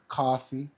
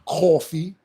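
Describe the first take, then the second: First: Coffee is said in a general American accent. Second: Coffee is said in a New York accent. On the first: "instead of coffee" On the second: "We say stuff like coffee"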